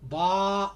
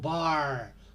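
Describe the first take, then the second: First: British accent, with no R sound at the end. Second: American accent, with a strong R at the end.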